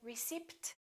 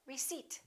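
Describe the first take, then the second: First: The P sound is pronounced. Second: The P sound is silent. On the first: The speaker calls it wrong. "Don't say receipt" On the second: The speaker calls it right. "silent P. ... say receipt"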